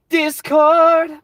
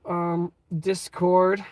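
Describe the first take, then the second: First: DISCORD shouted high and loud; a playful sudden yell of Discord; excited shout. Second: Said in the usual way. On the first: Pretend. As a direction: belt out Discord like an announcement.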